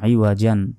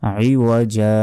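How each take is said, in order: First: The word ends with an n sound. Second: The word ends with a long drawn-out vowel. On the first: The reading continues without stopping. "জিম আলিফ দুই জবর জান" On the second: The reader stops at this word. "থামলে দুই জবরে ওয়াকফা করলে বা থামলে একটি জবরে উচ্চারণ হয় না।"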